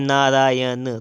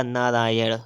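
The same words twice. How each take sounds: First: नारायण ending in dental n; plain n closing नारायण; wrong pronunciation. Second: नारायण ending in retroflex ṇ; correct pronunciation. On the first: Teacher reading the error, नारायण with dental n. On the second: Teacher correcting, नारायण with retroflex ṇ. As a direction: flap the end of नारायण. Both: Shown as a demonstration. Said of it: "तो हो जाएगा".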